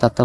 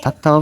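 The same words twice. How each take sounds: First: দাত্তা with an unaspirated d at the start; d pronunciation. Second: থাত্তাও with an aspirated th at the start; th pronunciation. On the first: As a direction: begin দাত্তা on d, not th. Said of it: "আবার দাত্তা বলা যায়". (দাত্তা-র শুরুতে দ উচ্চারণ) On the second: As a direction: begin থাত্তাও on th, not d. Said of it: "এভাবেও উচ্চারণ করা যায়". (থাত্তাও-এর শুরুতে থ উচ্চারণ) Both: Shown as a demonstration.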